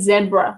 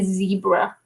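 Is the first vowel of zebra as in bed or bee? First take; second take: bed; bee. First: The first vowel is short, as in bed. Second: The first vowel is long, as in bee. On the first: This is how the speaker's own group says it. "we we say zebra" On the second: This is how others say it. "We don't say zebra"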